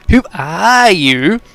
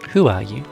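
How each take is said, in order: First: It is said in an obnoxious mocking voice. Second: It is said in a plain voice.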